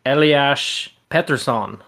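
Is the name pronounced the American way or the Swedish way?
Swedish. The name is given its original Swedish pronunciation. This is the name's original form. "I believe the correct pronunciation is supposed to be"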